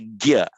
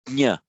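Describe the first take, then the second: First: The syllable begins with a g sound. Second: The syllable begins with an ny sound. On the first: This is the Hindi way. "In Hindi, it becomes a gya" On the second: This is the Sanskrit way. "It's like a nya sound. You put the tongue as if it's going to say a j"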